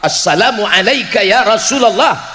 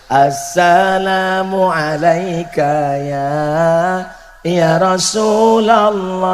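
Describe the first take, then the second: First: The greeting is said in a firm, forceful way. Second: The greeting is said in a soft, gentle way.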